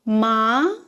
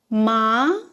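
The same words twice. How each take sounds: First: The pitch rises from low to high. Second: The pitch rises from low to high.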